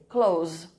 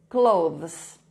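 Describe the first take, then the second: First: It ends in a plain z with no 'th'. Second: A voiced 'th' is heard before the final z. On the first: "os sons fossem K L O U Z" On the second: "esse T H vozeado e um Z no final"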